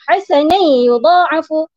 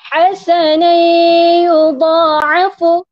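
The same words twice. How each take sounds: First: The nasal link is cut short without holding. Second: The nasal link is held for about two beats. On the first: The speaker calls it wrong. "tak boleh kita sebut" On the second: The speaker calls it right. "panjangkan sedikit masanya di situ selama lebih kurang dua saat"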